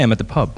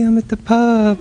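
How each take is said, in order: First: It is said in a plain, flat voice. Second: It is said in a softened, sweet voice. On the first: The speaker calls it wrong. "I don't say" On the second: The speaker calls it right. "a very deliberate decision to alter my tone, to alter the texture of my voice"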